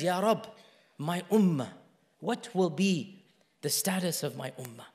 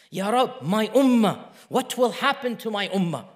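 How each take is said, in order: First: Soft, low, halting supplication; hushed retold prayer, sinking away; tearful plea, understated. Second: Fuller-voiced, insistent retold supplication; urgent repeat of a prayer; begging plea. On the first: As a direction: plead quietly, with pauses between phrases. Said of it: "then he began to cry". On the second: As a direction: plead it out firmly, without tears. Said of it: "kept on repeating and crying and begging".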